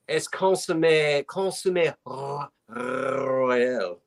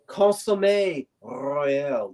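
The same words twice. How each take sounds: First: Royal with a rolled French r. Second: Consommé royal with a rolled French r. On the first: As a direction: roll the r, French style. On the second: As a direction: roll the r in royal, French style. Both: Shown as a demonstration. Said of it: "Did you notice how I rolled my R's?".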